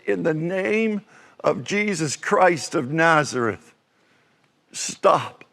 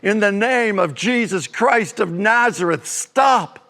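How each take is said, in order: First: It is said at a quieter volume. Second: It is said at a louder volume.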